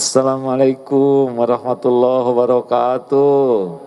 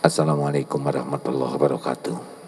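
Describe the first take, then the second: First: It is said warmly, with a smile. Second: It is said flatly, without a smile.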